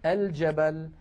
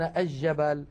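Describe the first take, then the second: First: الجبل said al-jabal, with clear l; pronounced lam. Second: الجبل said aj-jabal, l dropped; assimilated jim. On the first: Shown as a demonstration. Teacher showing classical usage, الجبل as al-jabal. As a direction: sound the l before j in الجبل. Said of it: "الفصحى أن نقول". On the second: Retold or imitated. Teacher quoting a common error, الجبل as aj-jabal. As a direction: double the j in الجبل, no l. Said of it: "هذا لا يصح".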